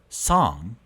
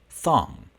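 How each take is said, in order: First: It begins with a hissing s sound. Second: It begins with a lisped th sound. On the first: The speaker calls it right. "instead of making your S sounds" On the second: The speaker calls it wrong. "you turn them into dental fricatives"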